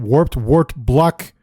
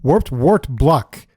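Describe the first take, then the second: First: Slow careful reading. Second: Slow careful repeat. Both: Shown as a demonstration. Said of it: "can't say three times fast".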